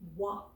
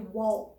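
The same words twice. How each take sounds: First: The L sound is silent in the word. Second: The L sound is pronounced in the word. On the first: The speaker calls it right. "We don't hear it. We say walk" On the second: The speaker calls it wrong. "We don't say walk"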